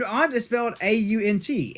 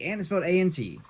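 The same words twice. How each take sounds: First: Raised, louder "aunt" with an open ah; aunt said as ahnt. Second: "Aunt" said like the bug, ant, pitched up; ant with short a. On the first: Defending his pronunciation, "aunt" as ahnt, higher and louder. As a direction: insist on "aunt" as ahnt, then spell it. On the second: Contrasting with the bug, "Aunt" as ant, higher pitch. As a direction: say "Aunt" with the vowel of "cat", then spell it. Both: Shown as a demonstration. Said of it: "I'm saying it right".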